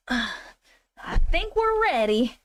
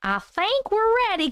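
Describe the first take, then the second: First: Slow, sighing and drawn out; tired, dragged-out repeat; weary sigh. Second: Said in the usual way. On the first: Shown as a demonstration. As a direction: sigh it out like you're over it.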